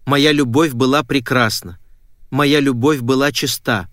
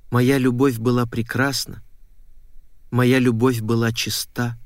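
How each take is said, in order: First: Said in the usual way. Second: Faint, sad recital of a song, barely sung; sung, understated mournful verse, slowing at the end; sad, weak singing. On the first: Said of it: "Напела ему мотив". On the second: A narrator's reading. Woman buried underground singing to herself, sad and weak. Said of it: "Грустно так. Слабо-слабо, бессвязно".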